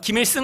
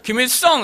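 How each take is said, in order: First: The name is said in a standard accent. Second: The name is said in a Gyeongsang accent. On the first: The speaker is not from Gyeongsang. The speaker calls it right. "김일승 한번 해보세요" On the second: The speaker is from Gyeongsang. The speaker calls it wrong. "경상도 분들이 제 이름을 가지고 김일성이라고 자꾸 발음하시는 것처럼"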